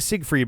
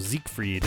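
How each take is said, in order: First: It starts with an S sound and ends soft. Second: It starts with a Z sound and has a K. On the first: "I'm saying Siegfried" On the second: "the S would be a Z sound. The G at the end of the syllable would give you the K"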